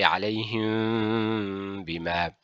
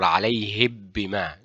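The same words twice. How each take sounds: First: The meem is hidden with a nasal hum. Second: The meem is clear with the lips pressed. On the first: The speaker calls it right. "we say" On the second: The speaker calls it wrong. "We do not say"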